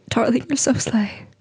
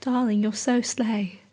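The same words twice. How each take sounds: First: Said in the usual way. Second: Lightly put-on British endearment; British accent. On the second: Imagined admirer complimenting her on a rainy night, British accent. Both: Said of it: "doesn't have to be in a British accent".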